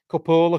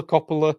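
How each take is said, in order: First: Coppola with a round open o, higher; Italian pronunciation. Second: Coppola with an English short o and a schwa; plain English Coppola; my usual pronunciation. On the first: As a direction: say Coppola the Italian way, stress on the first o. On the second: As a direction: say Coppola the way you always have. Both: Shown as a demonstration. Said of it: "I've always said Coppola".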